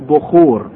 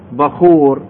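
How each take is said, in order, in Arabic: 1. المقطع الأول ليس فيه صائت 'a'. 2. المقطع الأول فيه صائت 'a'. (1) "احنا باللهجة العامية نقول بخور" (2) "بس اسمه الفصيح بخور"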